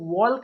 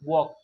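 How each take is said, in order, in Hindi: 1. K से पहले L की आवाज़ सुनाई देती है। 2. K से पहले L की आवाज़ सुनाई नहीं देती। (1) "वॉल्क नहीं पढ़ेंगे" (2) "वॉक पढ़ेंगे"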